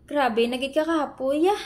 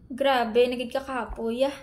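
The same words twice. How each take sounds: First: Said in the usual way. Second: Much softer, drained and defeated; worn-out surrender; exhausted, giving up. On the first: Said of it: "Paglagyan mo ng ya". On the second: Shown as a demonstration. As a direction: sigh it out like you've given up. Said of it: "sukong-suko ka na talaga dahil pagod".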